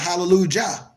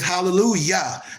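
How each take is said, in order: First: The last syllable begins with a J sound. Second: The last syllable begins with a Y sound. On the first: The speaker calls it wrong. "not hallelujah" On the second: The speaker calls it right. "it's praise Yah"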